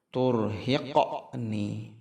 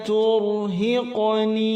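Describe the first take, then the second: First: The q sound is jerked out abruptly. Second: The q sound flows smoothly into the next. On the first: The speaker calls it wrong. "Contoh yang kurang tepat" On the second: The speaker calls it right. "tapi berjalan saja"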